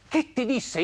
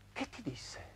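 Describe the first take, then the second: First: High, full-voiced repeat of the question; insistent question. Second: Barely voiced, very soft question; hushed question. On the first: Man presses the woman about his wife's words, insistent question. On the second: Man asks the woman what his wife said, hushed question. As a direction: let the question out almost soundlessly.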